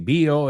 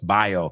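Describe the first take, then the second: First: It is pronounced with Spanish sounds. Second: It is pronounced with English sounds. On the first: "When you say bio" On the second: "it's bio"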